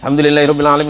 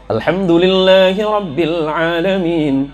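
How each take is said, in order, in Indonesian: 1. Dibaca dengan cepat. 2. Dibaca dengan tempo sedang. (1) "Yang nomor tiga hadar" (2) "Ada tadwir"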